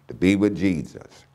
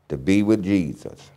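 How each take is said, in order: Both takes have the same delivery.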